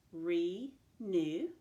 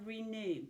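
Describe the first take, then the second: First: RENEW said as RE, pause, NEW, louder; split into syllables. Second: Said in the usual way. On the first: Shown as a demonstration. Teacher showing two syllables, split into syllables. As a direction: break RENEW in two, each syllable on its own. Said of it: "also has two syllables". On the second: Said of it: "was the word renew".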